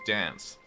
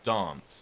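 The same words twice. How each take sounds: First: It is said in an American accent. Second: It is said in a British accent. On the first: "Americans would say" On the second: "as a British person, I'd say"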